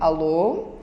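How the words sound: It is said in a calm, polite tone. The speaker has regained self-control. "atender com a voz normal"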